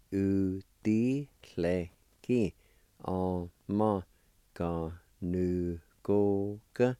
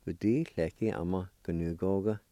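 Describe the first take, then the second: First: "u, di, le, ki, a, ma, ga, nu, go, ga" evenly spaced out; syllable by syllable. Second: Said in the usual way. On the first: Shown as a demonstration. Teacher modelling the whole word for geyser, syllable by syllable. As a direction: pause after each syllable of "u, di, le, ki, a, ma, ga, nu, go, ga". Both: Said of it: "And all together".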